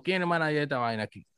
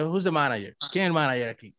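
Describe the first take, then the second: First: Rápido y brusco; suéltalo de golpe, sin modales. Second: Pregunta educada y tranquila; pregúntalo con buenos modales; cortés. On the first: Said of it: "No así". (brusco y rápido) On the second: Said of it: "No, yo de". (en tono cortés) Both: Retold or imitated.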